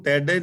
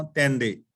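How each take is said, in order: First: ਤੈਡੇ said without the nasal sound, the wrong way; wrong pronunciation. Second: ਤੈਂਡੇ with a clear nasal first vowel, said carefully; correct pronunciation. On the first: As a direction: say ਤੈਡੇ flat, with no nasal vowel. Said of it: "ਇਹਨੂੰ ਤੈਡੇ ਨਹੀਂ ਪੜ੍ਹਨਾ". (ਤੈਡੇ ਬਿਨਾਂ ਨਾਸਿਕ ਧੁਨੀ ਦੇ, ਗਲਤ ਉਚਾਰਨ) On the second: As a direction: give ਤੈਂਡੇ its nasal tone, slow and deliberate. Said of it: "ਨਹੀਂ ਪੜ੍ਹਨਾ, ਤੈਂਡੇ". (ਤੈਂਡੇ ਨਾਸਿਕ ਧੁਨੀ ਨਾਲ ਸਹੀ ਉਚਾਰਨ) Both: Shown as a demonstration.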